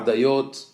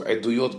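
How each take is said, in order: First: It begins with an 'a' sound, then 'dayot'. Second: It begins with an 'e' sound, then 'duyot'. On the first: It is read as coming from a word meaning choicest. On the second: It is read as the plural of testimony. "originally maybe was a plural of the word edut"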